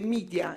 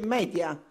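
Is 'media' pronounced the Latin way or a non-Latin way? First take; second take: non-Latin; Latin. First: The word is pronounced in a non-Latin way. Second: The word is pronounced the Latin way. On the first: The speaker calls it wrong. "è sbagliato" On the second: The speaker calls it right.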